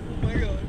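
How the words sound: It sounds like a sad surprise.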